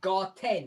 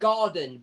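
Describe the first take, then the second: First: It is said with a T sound before -en. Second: It is said with a D sound before -en. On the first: This follows the word's German origin. "but it's a German word. It's Garten" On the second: This is the usual English way of saying it. "most people are going to say take that into garden"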